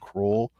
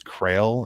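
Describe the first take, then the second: First: The name is said like the word cruel. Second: The name is said to rhyme with rail. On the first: The speaker calls it wrong. "I kept pronouncing it cruel all this time. Apparently it's not" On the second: The speaker calls it right. "It's Crail or something"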